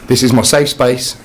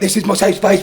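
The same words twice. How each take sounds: First: It is said slowly in a calm tone. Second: It is said fast and hurried. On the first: The speaker calls it right. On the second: The speaker calls it wrong.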